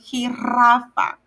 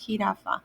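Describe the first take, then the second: First: The r is a long rolled trill. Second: The r is a single short tap. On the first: The word would be spelled with a double R. The speaker calls it wrong. "If he had two R's, I would say jirafa" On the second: The word is spelled with a single R. The speaker calls it right. "But if it's only one R, it's jirafa"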